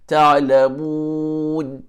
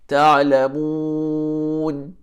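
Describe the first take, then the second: The two takes are said the same way.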